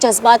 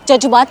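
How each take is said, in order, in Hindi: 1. बीच का व्यंजन 'z' की आवाज़ है। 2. बीच का व्यंजन सामान्य 'j' की आवाज़ है। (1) "आप नुक्ता लगाना भूल गई" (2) "नहीं"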